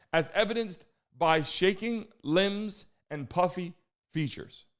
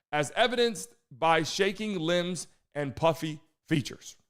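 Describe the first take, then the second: The two takes are said the same way.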